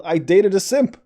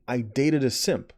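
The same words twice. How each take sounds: First: "I Dated a Simp" shouted high and loud; loud incredulous title call; exasperated shout. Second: Said in the usual way. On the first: Real, not acted. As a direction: spit out "I Dated a Simp" in disbelief.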